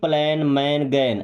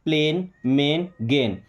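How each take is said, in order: First: The vowel sounds like 'a' in 'cat'. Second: The vowel sounds like 'ay' in 'day'. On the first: The speaker calls it wrong. "ऐसा नहीं कि" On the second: The speaker calls it right. "जहां ए आई आ रहा है उसका उच्चारण एक ही मात्रा"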